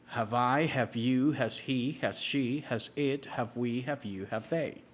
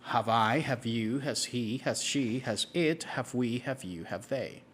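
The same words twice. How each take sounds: The two takes are said the same way.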